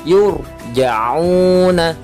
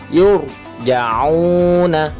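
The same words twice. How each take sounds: Both takes have the same delivery.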